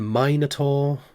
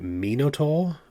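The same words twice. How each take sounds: First: It uses the usual American pronunciation. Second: It uses a pronunciation closer to Greek. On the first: "than Minotaur" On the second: "that is actually closer to the original Greek"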